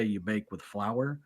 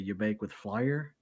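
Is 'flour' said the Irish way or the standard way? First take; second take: standard; Irish. First: Flour is said in a plain standard way. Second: Flour is said in an Irish way, like flyer. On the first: "She didn't say" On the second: "she'd say"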